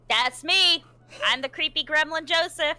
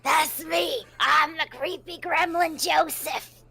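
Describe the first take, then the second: First: It is said in a normal voice. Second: It is said in a creepy gremlin voice.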